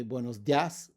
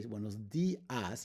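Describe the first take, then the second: First: "dias" squeezed into one syllable, "dyahs"; diphthong, no accent. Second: "dias" in two syllables, "DEE-ahs"; broken diphthong. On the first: Teacher showing the unaccented mistake, "dias" as one syllable. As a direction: run the i into the a in "dias". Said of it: "If it had no written accent". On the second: Teacher showing the correct greeting, "dias" split as DEE-ahs. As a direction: stress the i in "dias", separate from the a. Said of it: "two separate syllables". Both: Shown as a demonstration.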